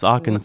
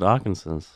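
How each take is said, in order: First: The word ends with a 'saw' sound. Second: The word ends like the name Kansas. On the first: The speaker calls it right. "It's Arkansas" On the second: The speaker calls it wrong. "I always pronounce it Arkansas. That's wrong"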